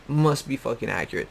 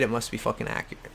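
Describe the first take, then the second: First: Full voice, even and deliberate; dry deadpan sarcasm; deadpan sarcastic repeat. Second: Fast and softer, thrown away; quick dry sarcasm; quick sarcastic aside. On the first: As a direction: repeat it flatly to land the joke. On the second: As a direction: toss off the sarcasm under your breath. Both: Real, not acted. Sarcastic, said twice.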